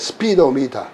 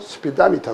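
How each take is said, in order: First: The unstressed vowels keep their full quality. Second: Some unstressed vowels are reduced to short i. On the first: The speaker calls it wrong. "근데 스피도미터 그러지 않거든요" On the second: The speaker calls it right. "삼 번으로 약해지면 스피다미터 그래요"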